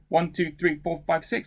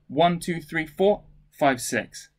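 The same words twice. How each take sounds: First: All six counts run together without a gap. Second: There is a slight pause after four.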